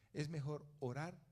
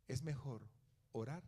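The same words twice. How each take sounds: The two takes are said the same way.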